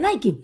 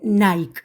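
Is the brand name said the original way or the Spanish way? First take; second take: original way; Spanish way. First: It is pronounced the original way. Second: It is pronounced the Spanish way. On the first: This is how the name is really pronounced. The speaker calls it right. "en realidad se pronuncia" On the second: This is how people in Spain usually say it. The speaker calls it wrong. "en España al menos nos gusta decir"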